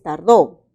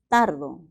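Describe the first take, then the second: First: The stress is on the last syllable. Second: The stress is on the first syllable. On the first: Someone took four days, in the past. "Esta palabra es tardó" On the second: I take four days, in the present. "también se puede pronunciar tardo"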